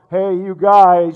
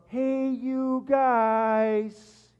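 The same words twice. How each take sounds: First: Booming loud, drawn-out call; megaphone shout. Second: Very slow, stretched, high cry; Sloth. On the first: Pretend. Preacher imagines God calling the whole world, booming megaphone shout. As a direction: boom it out as through a megaphone. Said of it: "he would have this giant megaphone". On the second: Retold or imitated. Preacher imitates Sloth coming to help the Goonies, long drawn-out cry. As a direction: drag each word out in a long goofy holler. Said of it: "He cries out".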